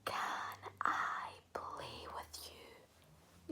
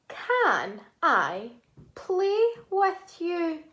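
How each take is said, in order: First: It is said in a whisper. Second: It is said in a normal voice.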